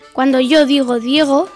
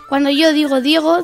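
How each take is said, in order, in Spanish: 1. La frase se dice a un ritmo lento. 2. La frase se dice a un ritmo medio. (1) "Primera velocidad" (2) "la velocidad media o dos"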